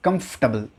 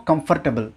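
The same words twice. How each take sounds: First: Comfortable as KUMF-ta-bul; correct comfortable. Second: Comfortable as kum-fur-ta-bul; mispronounced comfortable. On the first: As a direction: hold the F in comfortable, no vowel after it. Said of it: "it's comfortable". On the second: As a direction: sound the FOR in comfortable. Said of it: "There is no comfortable". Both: Shown as a demonstration.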